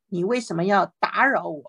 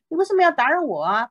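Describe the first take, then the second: First: Said in the usual way. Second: Higher, fast, put-upon complaint; annoyed Samuel. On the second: Acted. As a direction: act out the disturbed prophet's grumble.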